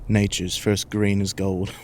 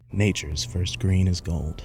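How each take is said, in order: First: It is spoken in a British accent. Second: It is spoken in an American accent. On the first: The speaker calls it wrong. "Why why'd I give him a British accent?" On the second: The speaker calls it right. "He's American"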